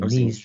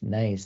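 First: The vowel sounds like 'ee'. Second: The vowel sounds like 'eye'. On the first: The speaker calls it wrong. "Not saying niece" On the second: The speaker calls it right. "but that's nice, I believe"

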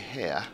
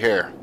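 First: It is said in a British accent. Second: It is said in an American accent. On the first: "with a nice little British accent" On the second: "like an American"

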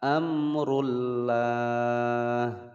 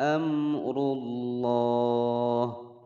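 First: The L sound is thin and light. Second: The L sound is thick and dark. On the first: The speaker calls it wrong. "Tidak diperbolehkan membaca amrullah" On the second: The speaker calls it right. "lafadz jalalah dibaca tebal"

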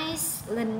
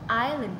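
First: An s sound is heard in the middle. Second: No s sound is heard in the middle. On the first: The speaker calls it wrong. "các bạn sẽ không được phát âm là Iceland đâu" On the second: The speaker calls it right. "chúng ta có chữ âm sờ là âm câm, vậy nên chúng ta chỉ có island"

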